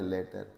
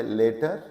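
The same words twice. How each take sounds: First: लेटर as the word letter, with a short 'e' sound; letter pronounced. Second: लेटर as the word later, with a long 'ay' sound; later pronounced. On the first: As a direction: say लेटर meaning letter, keeping the vowel short. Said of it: "और एक word है लेटर". (लेटर को letter की तरह छोटी 'ए' से बोलें) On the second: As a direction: say लेटर meaning later, lengthening the vowel. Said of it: "एक वर्ड है लेटर". (लेटर को later की तरह लंबी 'ए' से बोलें) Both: Shown as a demonstration.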